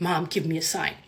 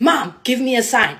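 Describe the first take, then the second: First: Low, soft inner voice; voicing a thought. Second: Said in the usual way. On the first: Silently asking mom for a sign in bed, softly voiced thought. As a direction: say it softly, as if only thinking it. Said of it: "in my mind, I said that". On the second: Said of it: "and I told him".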